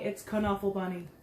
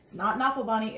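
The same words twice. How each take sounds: First: Knuffle said "kuh-nuffle" with the k sounded; correct pronunciation. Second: Knuffle said "nuffle" with a silent k; wrong pronunciation. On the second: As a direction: drop the k: "nuffle" Bunny. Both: Shown as a demonstration. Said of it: "This book taught me something".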